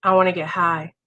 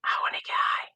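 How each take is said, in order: First: The craving finally gets a low voice; voiced craving. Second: A whisper, a bit stronger; louder inner whisper. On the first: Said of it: "And then the next day". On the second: Retold or imitated. Recovery talk, the craving whispers a little louder, still whispered. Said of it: "the voice gets a little louder the next day".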